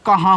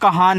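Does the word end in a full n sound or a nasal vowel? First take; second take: nasal vowel; full n. First: The word ends with a nasalized vowel. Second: The word ends with a clear n consonant. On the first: The speaker calls it right. "एन से ऊपर बिंदी, ये देखो कहाँ हो गया" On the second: The speaker calls it wrong. "यानी कि कहान कोई शब्द नहीं हो रहा है"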